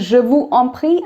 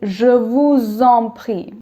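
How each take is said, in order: First: Vous and en are said separately, without z. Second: Vous links to en with a z sound. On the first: The speaker calls it wrong. "I'm not saying je vous en prie" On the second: The speaker calls it right. "Now you'll see liaisons"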